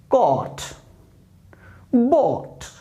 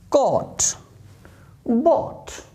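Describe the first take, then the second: Both takes have the same delivery.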